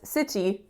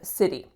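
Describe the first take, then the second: First: It uses a rarer, dictionary-style pronunciation. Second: It uses the everyday North American pronunciation. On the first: Native North American speakers rarely say it this way. The speaker calls it wrong. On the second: This is how native North American speakers say it. The speaker calls it right.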